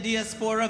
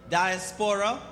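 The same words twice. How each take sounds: First: Diaspora said dee-ASPORA; queen's pronunciation of diaspora. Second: Diaspora said DIE-aspora; old pronunciation of diaspora. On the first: Host copying the pageant queen's way, dee-aspora. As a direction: open diaspora with "dee", not "die". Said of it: "from the queen said". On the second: Host showing how she used to say it, DIE-aspora. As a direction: open diaspora with a long "die". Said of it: "I used to say". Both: Shown as a demonstration.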